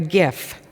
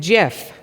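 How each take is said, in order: First: It begins with a hard g sound. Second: It begins with a j sound. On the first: "not to be mixed up with a gift we get at Christmas time" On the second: "which is not to be confused with Jif the peanut butter"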